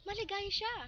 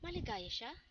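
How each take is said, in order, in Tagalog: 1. Sinabi ito bilang masayang padamdam. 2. Sinabi ito bilang tanong. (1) "Ito ay nagpapakita ng pagbubunyi"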